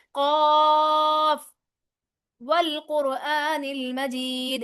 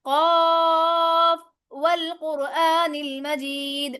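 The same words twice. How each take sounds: First: Slow recitation pausing after قاف; recited with a stop. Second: Slow recitation flowing قاف straight into والقرآن; recited joined. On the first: Teacher demonstrates waqf to students, slow recitation with a pause after قاف. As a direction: stop on قاف, then recite والقرآن المجید slowly. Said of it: "یہ میں نے کیا وقف". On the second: Teacher demonstrates wasl to students, joined slow recitation. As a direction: join قاف to والقرآن المجید without stopping. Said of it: "اب میں پڑھتی ہوں وصل کے ساتھ". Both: Shown as a demonstration.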